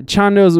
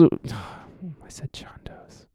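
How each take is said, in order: First: Said in the usual way. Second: Sighing whisper, slow, under the breath; breathy slow whisper of Chondo's after a sigh; whispered correction. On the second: Real, not acted. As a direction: mutter Chondo's to yourself with a sigh.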